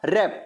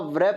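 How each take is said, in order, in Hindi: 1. शब्द की शुरुआत R की ध्वनि से होती है। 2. शब्द की शुरुआत W की ध्वनि से होती है। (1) "क्या जाएगा रैप" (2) "पढ़ा व्रैप नहीं जाएगा"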